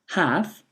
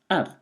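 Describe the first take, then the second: First: The word keeps its full vowel. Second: The word is reduced to a weak vowel.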